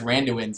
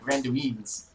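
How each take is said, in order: First: The word is said in a plain accent. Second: The word is said in a posh British-like accent. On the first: This is the speaker's own way of saying it. "I say it as Randuins" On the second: This mimics how the other person says it. "you're like Randuins. it sounds like Stewie from Family Guy"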